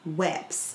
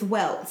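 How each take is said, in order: First: The word ends in a p-s sound, no L. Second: The word has an L before t-s. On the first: The speaker calls it wrong. "I thought my whole entire life that people were saying weps" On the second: The speaker calls it right. "It's not. It's welts"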